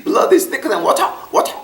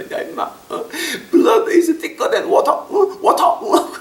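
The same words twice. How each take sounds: First: High, slow "Blood is thicker than water" drawn out; drunk brother again. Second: Put-on drunk big brother. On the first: Retold or imitated. Older brother repeating his English proverb, high and slow. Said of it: "그거 갖다 또 영어로 하시는 거야". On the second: Drunk older brother phoning the pastor, slow high drawl. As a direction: play the drunk brother lecturing over the phone. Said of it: "큰형님이 술 먹고 전화해서".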